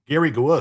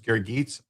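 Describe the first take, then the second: First: The surname is said without a final 'ts' sound. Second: The surname is said ending in a 'ts' sound. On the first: The speaker calls it wrong. "I know I said that wrong" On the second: The speaker calls it right. "It's pronounced Geets"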